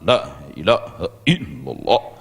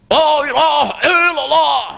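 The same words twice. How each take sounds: First: The phrase is said restrained, with force held in. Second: The phrase is shouted loudly and with strain. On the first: The speaker calls it right. "Dikuatkan, ya, disentakkan ke dalam" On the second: The speaker calls it wrong. "seperti orang teriak-teriak ya"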